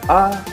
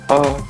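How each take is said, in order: First: The pitch goes up on the syllable. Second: The pitch goes down on the syllable. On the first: "if you say it up like" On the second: "or down"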